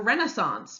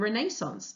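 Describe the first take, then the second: First: It is said with an American pronunciation. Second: It is said with a British pronunciation.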